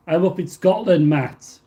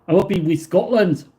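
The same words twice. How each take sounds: First: Said in the usual way. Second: Put-on Scottish lilt, pitch jumping up at the end; bad Scottish accent. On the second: Streamer telling a viewer where he is, bad Scottish accent. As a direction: have a poor go at a Scottish accent. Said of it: "probably the worst Scottish accent ever".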